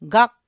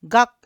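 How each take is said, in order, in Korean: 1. 이 음절은 짧고 끊기는 받침으로 끝납니다. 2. 이 음절은 짧고 끊기는 받침으로 끝납니다.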